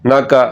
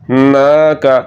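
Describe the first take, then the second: First: The vowel is cut short. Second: The vowel is drawn out long. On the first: The speaker calls it wrong. "ये गलत है" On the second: The speaker calls it right. "इसको लंबा करना है"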